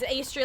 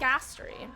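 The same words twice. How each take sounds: First: The first vowel sounds like in 'day'. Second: The first vowel sounds like in 'cat'. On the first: "like pastry" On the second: "Like Astrid"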